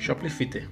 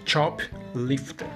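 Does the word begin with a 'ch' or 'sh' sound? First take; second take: sh; ch. First: The word begins with a soft 'sh' sound. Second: The word begins with a sharp 'ch' sound. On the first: The speaker calls it wrong. "eu pronunciava Shoplifter ... tirar todos os hífens" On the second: The speaker calls it right. "Porque são duas palavras no caso ... Chop é uma palavra para helicóptero"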